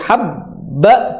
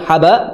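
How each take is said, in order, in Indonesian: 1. Bunyi b ditahan lama. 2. Bunyi b pendek dan tidak ditahan. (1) "habba ditahan banyak"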